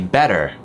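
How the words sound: The final R sound is clearly pronounced. "an American, they would say better, where they do this er on the end"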